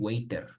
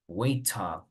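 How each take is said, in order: First: It is said with a Spanish-style R sound. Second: It is said with a British English accent. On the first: The speaker calls it wrong. "that is Spanish pronunciation" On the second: The speaker calls it right. "You can stick to British English if you want"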